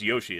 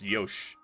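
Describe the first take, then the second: First: The final vowel is clearly sounded. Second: The final vowel is dropped after the sh. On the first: The speaker calls it wrong. "they don't pronounce Yoshi" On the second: The speaker calls it right. "it's Yosh"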